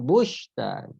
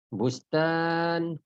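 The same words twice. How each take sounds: First: The word is said with an sh sound. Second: The word is said with an s sound. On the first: The speaker calls it wrong. "bukan shin" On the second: The speaker calls it right.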